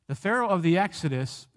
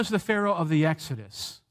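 The two takes are said the same way.

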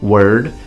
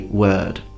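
First: The R sound is pronounced after the vowel. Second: The R sound is dropped after the vowel. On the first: "Some natives do pronounce it, some natives say word" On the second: "I tend to say word"

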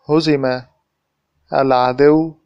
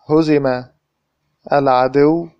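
No difference in how they are said.

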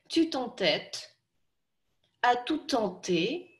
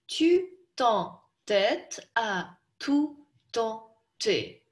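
First: It is spoken in short chunks with breaks. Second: Each syllable is spoken separately with breaks. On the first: "Теперь по маленьким кусочкам" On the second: "давайте сначала по слогам прочтем"

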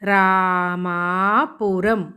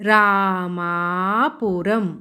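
Both takes have the same delivery.

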